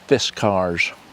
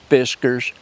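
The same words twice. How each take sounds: First: It is said not rhyming with whiskers. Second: It is said to rhyme with whiskers. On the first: This is how the company says it. The speaker calls it right. "but in reality it's Fiskars" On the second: This is how most people say it. The speaker calls it wrong. "I always call it Fiskars like everybody else, like cat whiskers"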